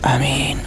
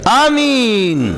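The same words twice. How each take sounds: First: It is said quietly, under the breath. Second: It is said very loudly, like an announcement.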